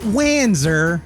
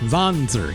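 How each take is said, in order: First: The word is read with English pronunciation. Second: The word is said with German pronunciation. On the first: The speaker calls it wrong. "Not Wanzer, okay? I know what it says here in English" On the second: The speaker calls it right. "The term is German"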